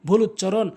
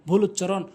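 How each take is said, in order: The two takes are said the same way.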